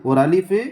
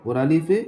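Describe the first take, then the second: No difference in how they are said.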